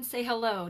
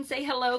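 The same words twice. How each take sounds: First: Put-on light British accent on "say hello"; a playful, lightly done British "say hello". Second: Said in the usual way. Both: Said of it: "in my British accent".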